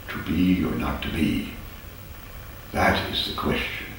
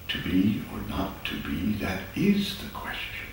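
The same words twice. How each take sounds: First: There is a pause after 'not to be'. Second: The line is said in one breath. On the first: The speaker calls it wrong. "It's usually read, ... with a pause in between there" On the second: The speaker calls it right. "it's one line ... that's the true way of iambic pentameter"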